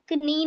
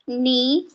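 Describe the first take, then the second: First: A k sound is heard before the n. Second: The word starts directly with the n sound. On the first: The speaker calls it wrong. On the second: The speaker calls it right.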